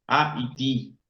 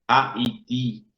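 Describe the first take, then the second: The two takes are said the same way.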